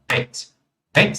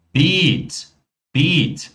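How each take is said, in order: First: "Pet" with a short, quick vowel. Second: "beat" with a long, held vowel. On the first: Teacher shows the word for bed, "Pet" with short vowel. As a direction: keep the vowel of "Pet" brief, straight onto the t. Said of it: "Pronúncia curta". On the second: Teacher contrasts it with the short word, "beat" drawn out long. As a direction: stretch the vowel of "beat" before the final t. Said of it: "pronúncia longa". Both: Shown as a demonstration.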